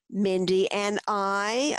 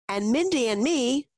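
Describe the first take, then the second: First: Slow correction leaning on "I"; correcting interjection. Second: Said in the usual way. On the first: A narrator's reading. Grandpa correcting the child's grammar, stressing a drawn-out "I". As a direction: draw out "I" with a rising lift, slowly. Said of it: "a grandpa interjected".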